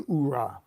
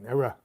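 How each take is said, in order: First: The word begins with an 'oo' vowel. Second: The word begins with an 'ee' vowel. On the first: This is the official version. "I don't say oorah" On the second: This is the speaker's own personal version. "that's how I say it"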